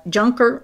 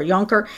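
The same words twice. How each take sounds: First: "Juncker" with an English J, like "junker"; English J pronunciation. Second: "Juncker" with J said as Y, like "Yunker"; Y pronunciation. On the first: Co-host reading the tweet tries the name, "Juncker" with English J. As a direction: say "Juncker" starting with a hard English J sound. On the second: Co-host offers the other reading of the name, "Juncker" said with a Y. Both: Shown as a demonstration.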